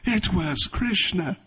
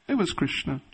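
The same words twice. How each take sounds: First: It is said in an amazed, excited tone. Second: It is said in a flat, matter-of-fact tone.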